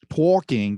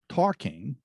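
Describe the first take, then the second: First: It is said in a New York accent. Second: It is said in a plain, neutral accent.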